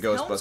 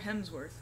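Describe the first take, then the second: First: The name is said with an L sound. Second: The name is said without an L sound. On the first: The speaker calls it wrong. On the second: The speaker calls it right.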